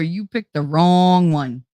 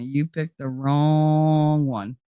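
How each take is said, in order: First: Slow, drawn-out warning; slow menacing motto. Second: Even slower, each word spaced out; slow menacing warning. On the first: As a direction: lay it out slowly like a threat. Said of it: "my friggin' motto". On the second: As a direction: drag it out to scare them off. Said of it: "Whenever anybody approaches me". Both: Retold or imitated.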